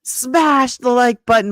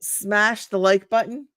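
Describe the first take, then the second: First: Loud, high, slow punch on "smash"; imitating her son. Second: Slow "smash the like button", rising at the end; tentative slogan. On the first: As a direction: belt out the slogan like your son. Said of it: "my son says". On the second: Pretend. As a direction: try out "smash the like button" slowly, ending on a lift. First try before imitating son.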